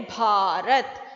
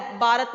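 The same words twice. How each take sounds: First: भारत slow, with aspirated BH and long AA. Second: भारत said as "baarat", no puff of air; unaspirated B. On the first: Teacher corrects children's भारत, drawn-out aspirated BH. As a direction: stretch out भारत, puffing air on भ. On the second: Teacher shows children the mistake, भारत with plain B. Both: Shown as a demonstration. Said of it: "भारत नहीं बोलते हैं".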